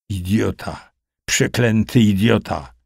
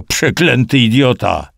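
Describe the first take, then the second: First: Mumbled curse. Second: Higher, mildly yelled curse; angry yell. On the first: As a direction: curse feebly, as if beaten down. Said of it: "wybełkotał Kusał". (słaby, niewyraźny bełkot) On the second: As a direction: curse him in a raised voice. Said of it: "wrzasnął Kusał". (gniewny okrzyk podniesionym głosem) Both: A narrator's reading.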